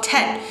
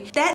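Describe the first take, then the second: First: The word is said with an American accent. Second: The word is said with a Vietnamese accent. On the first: "I'm saying that in a really American way" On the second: "I'm gonna try to say it in a Vietnamese way"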